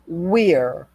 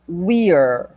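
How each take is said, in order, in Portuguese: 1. As palavras se juntam em uma sílaba curta. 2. As palavras se juntam em uma sílaba curta.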